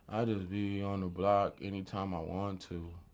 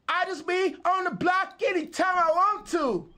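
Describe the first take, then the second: First: It is said in a flat monotone. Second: It is said with lively, varied pitch.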